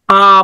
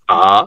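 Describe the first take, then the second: First: The syllable is said in the first tone. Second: The syllable is said in the second tone. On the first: It means to drink. "First টোনে ছিল এভাবে" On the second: It means and. "Second tone"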